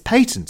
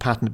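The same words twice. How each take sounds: First: The word is said in a British way. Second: The word is said in an American way. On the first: The speaker calls it right. "that's how we say it in England" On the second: The speaker calls it wrong. "I've been pronouncing it wrong or in the Americanization of"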